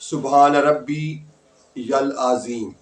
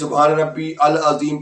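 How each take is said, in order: First: Rabbi links into al with a y sound. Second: Rabbi and al are said without a y sound. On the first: The speaker calls it right. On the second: The speaker calls it wrong.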